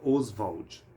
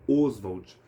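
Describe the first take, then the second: First: The stress is on the second syllable. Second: The stress is on the first syllable. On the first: This is how the name was said in its bearer's lifetime. "a pronúncia na época era Oswald" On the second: This is how the name came to be said after its bearer died. "Essa pronúncia com ênfase na vogal inicial"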